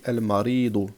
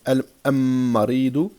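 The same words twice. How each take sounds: First: The l is clearly sounded before the m. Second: The l merges into a doubled m sound. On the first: The speaker calls it right. "on entend bien que je prononce le lem" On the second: The speaker calls it wrong. "je ne dis pas المريض"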